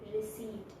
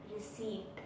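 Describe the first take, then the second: The two takes are said the same way.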